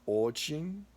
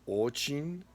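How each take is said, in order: The two takes are said the same way.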